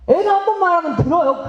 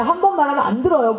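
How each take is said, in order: First: Pitched up and pushed, driving home 한 번; emphatic. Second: Said in the usual way. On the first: Shown as a demonstration. Preacher teaching parents the line, stressing 한 번. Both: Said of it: "여러분 이렇게 얘기하세요".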